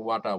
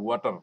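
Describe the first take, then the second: First: ওয়াটা with no final r; English pronunciation. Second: ওয়াটার with the final r sounded; Bangla way. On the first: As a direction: say ওয়াটা, ending open. (ইংরেজি ঢঙে ওয়াটা, র ছাড়া) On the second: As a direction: say ওয়াটার, r at the end. (Bangla ঢঙে ওয়াটার) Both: Shown as a demonstration. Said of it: "ওরা ওয়াটা বলে".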